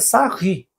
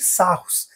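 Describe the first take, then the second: First: The name ends with an 'ee' sound. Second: The name ends with an 'oos' sound. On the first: The speaker calls it right. "Mas o correto é Sarri" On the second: The speaker calls it wrong. "muitos dizem que não sabem a pronúncia"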